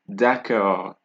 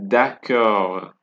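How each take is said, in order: The two takes are said the same way.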